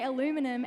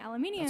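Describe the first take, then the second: First: It is said with four syllables, ending -num. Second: It is said with five syllables, ending -nium. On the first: This is how Americans say it. "you guys say aluminum" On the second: This is how the speakers' own country says it. "you get angry at us for saying aluminium"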